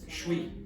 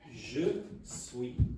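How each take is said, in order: First: The two words merge quickly into one syllable. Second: Two separate words are heard clearly. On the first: "pronouncing it very quickly" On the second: "the normal way"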